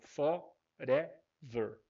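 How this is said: It has a Brazilian Portuguese accent. "quando você fala em português com som abrasileirado, nós vamos falar com um som de fó"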